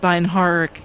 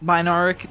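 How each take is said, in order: First: The h sound in the middle is pronounced. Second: The h sound in the middle is silent. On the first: The speaker calls it wrong. "I always feel like I mispronounced that" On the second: The speaker calls it right. "there we go"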